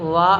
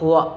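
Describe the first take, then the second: First: The lower lip touches the upper teeth. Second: The sound is made with both lips only. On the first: The speaker calls it wrong. "വ എന്നല്ല" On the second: The speaker calls it right. "രണ്ട് ചുണ്ടിൽ നിന്ന് മാത്രമാണ് വേണ്ടത്"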